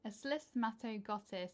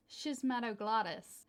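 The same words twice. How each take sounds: First: Slismatoglottis in a British accent, fumbled; British accent try. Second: Schismatoglottis in an American accent, shiz-ma-do-GLAH-dus. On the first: Trying the plant name again in a British accent. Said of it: "I can't even say it in a British accent". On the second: Copying an American YouTube video, saying Schismatoglottis in an American accent. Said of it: "it comes up in an American accent". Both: Shown as a demonstration.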